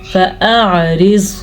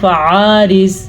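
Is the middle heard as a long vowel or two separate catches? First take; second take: two catches; long vowel. First: The middle has two distinct throat catches, no gap. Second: The middle is one drawn-out vowel sound. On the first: The speaker calls it right. "पहले हमज़ा की आवाज़ निकलेगी फिर आइन की" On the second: The speaker calls it wrong. "अक्सर लोग इसको पढ़ते हैं फ़आरिज़, ये बड़ी गलती है"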